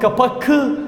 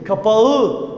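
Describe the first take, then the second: First: A hard k sound comes before the ending. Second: A soft ğ sound comes before the ending. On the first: The speaker calls it wrong. "kapak kı diyemeyiz" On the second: The speaker calls it right. "Kapağı dememiz lazım"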